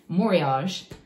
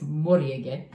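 First: It is said with an American pronunciation. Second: It is said with a Japanese pronunciation. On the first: "as we call it in America" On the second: "To pronounce it correctly in Japanese"

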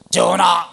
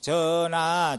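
First: It is said forcefully and loudly. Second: It is said mildly and plainly.

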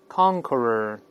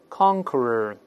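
No difference in how they are said.

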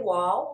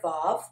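First: It begins with a w sound. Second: It begins with a v sound. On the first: This is the older way of naming the letter. "The wow is a more antiquated pronunciation" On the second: This is the common modern way of naming the letter. "what is commonly known now as the vav"

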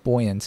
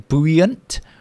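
First: It starts with the sound boy. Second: It starts with the sound boo. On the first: The speaker calls it right. "The adjective buoyant" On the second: The speaker calls it wrong. "What do they say?"

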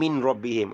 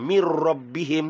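First: The n is pronounced clearly before the r. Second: The n merges into the following r sound. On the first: The speaker calls it wrong. "dia tak boleh" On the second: The speaker calls it right. "nun mati atau tanwin bertemu dengan huruf lam dan ra... kena dibunyikan macam seakan bunyi huruf selepas nun mati"

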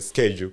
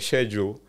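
First: It is said in an American pronunciation. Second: It is said in a non-American pronunciation. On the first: Listeners in the US understand it. "unless you say schedule" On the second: Listeners in the US do not understand it. "when you say schedule, no one understands you"

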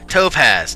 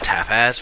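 First: The first syllable sounds like 'top'. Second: The first syllable sounds like 'tap'. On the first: The speaker calls it right. "Topaz, not tapaz" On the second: The speaker calls it wrong. "I know I was saying it wrong"

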